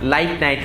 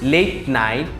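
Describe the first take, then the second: First: Late sounds almost like 'light'. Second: Late is said with an 'ay' vowel. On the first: "Australian ইংলিশে অনেকটা লাইট night হয়ে যায়" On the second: "আমরা যেটাকে বলি লেট night"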